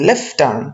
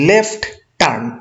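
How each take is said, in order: First: The t at the end of left is dropped. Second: The t at the end of left is pronounced. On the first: "একটু দ্রুত বলে দেখেন লেফট turn, এই প্রথম লেফটের টিটা চলে যাচ্ছে অটোমেটিক্যালি" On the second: "আমরা যদি বলি লেফট টার্ন"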